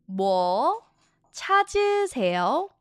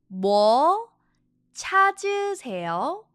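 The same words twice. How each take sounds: No difference in how they are said.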